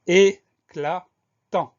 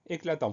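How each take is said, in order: First: Very slow, each syllable of "éclatant" held and set apart; syllable-by-syllable dictation. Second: Said in the usual way. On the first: Shown as a demonstration. Teacher presenting the next spelling word, slowly syllable by syllable. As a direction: dictate "éclatant" in three separate, louder beats.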